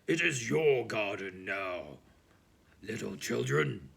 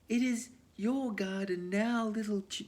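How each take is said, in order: First: It is said in the giant's voice. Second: It is said in a voice not the giant's.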